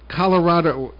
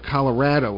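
First: Colorado is said in the speaker's usual way. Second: Colorado is said the way locals say it.

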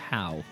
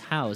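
First: The name ends without an s sound. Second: The name ends with an s sound. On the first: "Howes or How?" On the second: "It's Howes. How, but with an S on the end"

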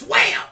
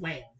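First: It is said excitedly, with energy. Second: It is said flatly, without energy.

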